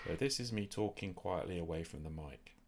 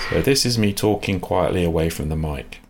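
First: The voice sounds quiet and distant. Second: The voice sounds loud and boosted. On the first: "this is me talking quietly away from the mic" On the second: "ramp up the volume of that sound"

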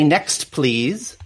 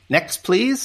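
First: The T at the end of next is pronounced. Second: The T at the end of next is dropped. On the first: "We should pronounce our consonants as well" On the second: "in reality in speaking we probably say next please. Where's the tea go? I eat the tea"

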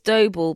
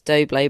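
First: The name does not rhyme with Bublé. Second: The name rhymes with Bublé. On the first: This is the real pronunciation of the name. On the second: This is a playful nickname version of the name.

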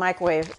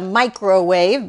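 First: The word is squeezed into two syllables. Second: The word is said with three full syllables. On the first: "It turns into 2 syllables" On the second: "but I don't say it that way"

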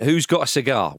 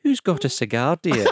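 First: It is said in his ordinary accent. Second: It is said in a Mrs Doubtfire Scottish accent.

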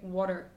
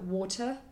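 First: It is said in an American accent. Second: It is said in a British accent.

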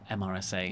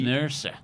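First: It is spelled out letter by letter. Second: It is said as a single word. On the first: "the initialism of MRSA" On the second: "They've turned it into an acronym"

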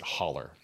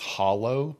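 First: The word ends with an 'er' sound. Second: The word ends with an 'oh' sound. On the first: This is how the local mountain community says it. "but we pronounce it holler" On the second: This is the standard form of the word. "The actual word is hollow"

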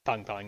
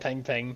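First: The vowel is like the 'o' in pong. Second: The vowel is like the 'e' in penguin. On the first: The speaker calls it right. "It's pong pong" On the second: The speaker calls it wrong. "I've also been mispronouncing it. I've also been saying peng peng"

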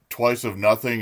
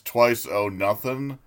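First: The f sound in 'of' is pronounced. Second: The f sound in 'of' is dropped. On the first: "instead of twice of nothing" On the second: "he's always dropping like consonants"

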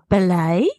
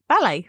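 First: The pitch rises at the end like a question. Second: The pitch falls at the end like a statement. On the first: It sounds unsure, like asking a question. The speaker calls it wrong. "Almost like it's a question as well" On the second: It is a plain, confident statement. The speaker calls it right.

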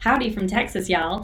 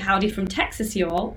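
First: It is spoken in an American Southern accent. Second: It is spoken in a British accent. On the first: The speaker calls it right. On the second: The speaker calls it wrong.

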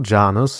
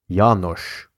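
First: The name is said with an English pronunciation. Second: The name is said with a non-English pronunciation. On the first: The speaker calls it wrong. "Three names I managed to say as if they were English" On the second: The speaker calls it right. "The correct way of speaking these names"

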